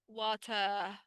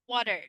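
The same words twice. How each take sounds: First: British accent with no r sound at the end. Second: American accent with a flapped t and final r. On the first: "In the British, we don't pronounce the R" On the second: "in the American accent ... here we find the flap T"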